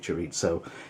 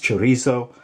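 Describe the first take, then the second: First: The word is said with an Italian-style z sound. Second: The word is said with a plain Spanish z sound. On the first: This is how it would be said if it were Italian. The speaker calls it wrong. "If it was Italian, it would be" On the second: This is the standard Spanish way. The speaker calls it right. "It's chorizo"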